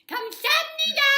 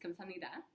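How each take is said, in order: First: It is said loudly, with a lisp. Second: It is said quietly and blurred together.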